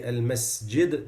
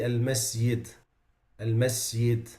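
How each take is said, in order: First: Al-masjid with a firm j; al-masjid, clear hard j; correct jim. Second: Al-masjid with a y instead of j; jim turned ya. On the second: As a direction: say al-masjid as masyid. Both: Shown as a demonstration. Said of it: "they say".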